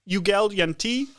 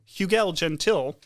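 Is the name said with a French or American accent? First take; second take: French; American. First: The name is said the French way. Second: The name is said the American way.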